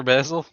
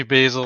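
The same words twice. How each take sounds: First: "Basil" as BAZ-ul, first vowel as in cat; short-A pronunciation. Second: "Basil" as BAY-zul, first vowel as in day; long-A pronunciation. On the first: Guest offering either name, "Basil" said BAZ-ul. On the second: Guest offering either name, "Basil" said BAY-zul. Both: Shown as a demonstration. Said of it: "Depends on your accent".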